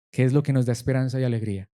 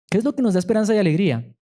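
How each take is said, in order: First: Said in the usual way. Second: Fervent rhetorical question; emphatic repeat. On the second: Acted. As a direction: throw "¿Qué es lo que nos da esperanza y alegría?" at the congregation, stress on "lo".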